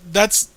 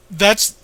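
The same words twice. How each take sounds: The two takes are said the same way.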